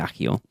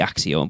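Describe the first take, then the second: First: The double c is said as 'k'. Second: The double c is said as 'ks'. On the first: The speaker calls it wrong. "everyone pronounces it Accio" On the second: The speaker calls it right. "It should be Axio, like accept"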